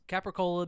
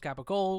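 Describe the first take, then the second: First: The word ends with its final vowel sound. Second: The word ends without its final vowel sound.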